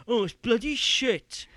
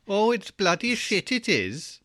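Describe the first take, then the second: First: Loud, high, drawn-out mock grumble; dismissive moaner. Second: High, drawn-out mock Welsh lilt; Welsh accent. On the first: Host mimicking someone who just slags games off, dismissive grumbling. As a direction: moan it loudly like a lazy critic. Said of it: "You just going". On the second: Co-host teasing the host's moan as Welsh, hammed-up Welsh accent. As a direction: grumble it slowly in a sing-song Welsh accent. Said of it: "In, in a Welsh accent".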